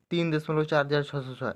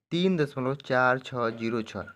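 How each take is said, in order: First: Said in the usual way. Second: Slow, each of "चार छः zero छः" on its own; measured teacher's demo, "चार छः zero छः" slowly separated; digit by digit. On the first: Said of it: "ऐसे नहीं पढ़ेंगे". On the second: Shown as a demonstration. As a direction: spell out "चार छः zero छः" one digit at a time. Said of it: "ऐसे एक एक करके पढ़ेंगे".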